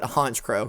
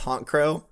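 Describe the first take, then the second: First: The first part ends in a 'ch' sound. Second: The first part ends in a 'k' sound. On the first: The name is a pun on a word for a leader. The speaker calls it right. "should be pronounced like that word" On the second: The name sounds like a honking noise. The speaker calls it wrong. "I always pronounce it as Honk Crow"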